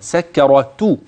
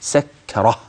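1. تنتهي الكلمة بصوت t. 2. تنتهي الكلمة بصوت h. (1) "أنت تلفظ بها تاء" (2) "تبدل هذه التاء هاء عند الوقف"

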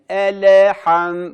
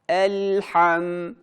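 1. L sesinin arkasından kısa bir ekstra ünlü gelir. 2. L sesi, arkasına ünlü gelmeden tutulur. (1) "Yapmamamız gereken elham. Bakın hemen hareket ettiriyorum dilimi" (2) "Dilimizin ucunu üst damakta sabitlememiz gerekiyor"

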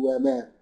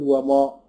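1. الصوت الطويل مرقق وخفيف. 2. الصوت الطويل مفخم وثقيل. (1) "لا نقول وما، ترقق زي الميم اللي قبلها" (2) "هنقول وما ولا نقول وما؟"

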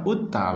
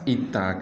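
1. Kata ini diawali dengan vokal u. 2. Kata ini diawali dengan vokal i. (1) "utta baris depan" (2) "itta ke baris bawah"

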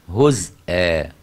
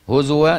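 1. في الكلمة همزة مباشرة بعد z. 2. في الكلمة صوت w ولا توجد همزة. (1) "أما حمزة وخلف يقرأ إيه؟" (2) "هزوا دي قراءة حفص بس"

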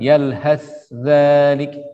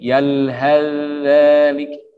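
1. Bunyi 'th' terdengar jelas dengan desisnya. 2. Bunyi 'th' sepenuhnya melebur ke dalam 'dh' setelahnya. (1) "membaca dengan izhar. Tidak diidghamkan" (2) "ketika sudah diidghamkan, maka sa-nya tidak berdesis lagi"

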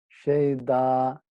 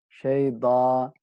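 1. Ünsüz ince ve hafif. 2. Ünsüz ince ve hafif.

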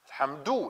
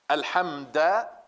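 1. Das Wort endet auf einen 'du'-Laut. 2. Das Wort endet auf einen 'da'-Laut. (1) "Alhamdu natürlich" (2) "Er hat hier dieses Du geändert zu Da"

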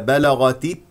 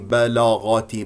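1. الحركات قصيرة وواضحة. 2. الحركات ممدودة وطويلة.

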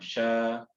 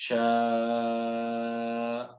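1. Ünlü hızlıca kısa kesiliyor. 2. Ünlü dört sayım boyunca yavaşça tutuluyor. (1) "Şa değil" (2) "Yavaş yavaş"

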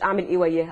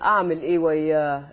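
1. يُقال بشكل عادي بنغمة ثابتة ومعتادة. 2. يُقال بنغمة متغيرة وكلمات ممتدة. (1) "مش" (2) "الطبقه بتتغير والكلام بيروح"

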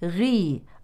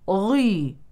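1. صوت gh مُفخَّم تفخيمًا متوسطًا. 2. صوت gh مُفخَّم بمبالغة شديدة. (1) "فالمفروض أنها غي غي" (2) "يبالغ في التفخيم، وهذا غير صحيح"

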